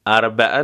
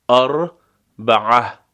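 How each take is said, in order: First: اربعه with no ʕ, said the Persian way, shown as wrong; wrong Persian arbae. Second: اربعة slow, with a thick ʕ from the throat; slow arbaʕa. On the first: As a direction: say arbae without the throat sound. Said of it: "اربعه نمیگیم". (اربعه به غلط بدون عین) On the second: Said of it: "عین غلیظ از وسط حلق". (اربعة آهسته با عین حلقی) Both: Shown as a demonstration.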